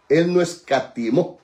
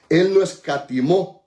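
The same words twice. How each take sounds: The two takes are said the same way.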